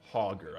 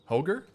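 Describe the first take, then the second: First: The first syllable sounds like the word 'hog'. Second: The first syllable does not sound like 'hog'. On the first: The speaker calls it right. "I think, is the right way. Like a hog" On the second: The speaker calls it wrong. "one of those words that I always mispronounce"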